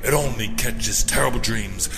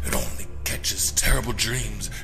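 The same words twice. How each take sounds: First: The phrase is spoken aloud in a normal voice. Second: The phrase is whispered in a rhythmic beat. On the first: "now in a normal speaking voice" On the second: "whispering it over and over again to the rhythm"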